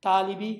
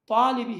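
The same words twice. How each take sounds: First: Said in the usual way. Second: "طالبی" with a thick, heavy first t; emphatic Arabic ta. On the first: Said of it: "توئن کا تلفظ تا کا تلفظ کے طرح". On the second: Shown as a demonstration. Teacher shows the distinct letter, emphatic t. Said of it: "توئن کا الگ سا تلفظ".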